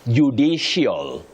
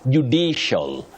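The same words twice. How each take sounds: First: The word is said with a glide sound. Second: The word is said without a glide sound. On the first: The speaker calls it wrong. "Judicial, judicial, no. You avoid those glides" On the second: The speaker calls it right. "You say ... judicial"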